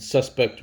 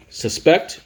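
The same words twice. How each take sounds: First: Suspect as SUS-pect, lighter pect after it; stress on first syllable. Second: Suspect as sus-PECT, high rising PECT; stress on second syllable. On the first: Teacher recapping suspect as the noun, stressed on the first syllable. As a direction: lean on SUS at the start of suspect. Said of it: "which is the noun". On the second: Teacher recapping suspect as the verb, stressed on the second syllable. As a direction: hit the second syllable of suspect, pitch going up. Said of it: "which is the verb". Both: Shown as a demonstration.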